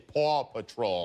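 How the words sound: It is said in a New York accent. "because I have a New York accent, so I say Paw Patrol"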